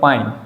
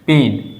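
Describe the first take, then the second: First: The vowel glides from 'a' to 'i'. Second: The vowel is a single plain 'e'. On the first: The speaker calls it wrong. "इसका होना है पाइन, नहीं" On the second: The speaker calls it right. "यहाँ सिर्फ ए का ही sound निकल रहा है"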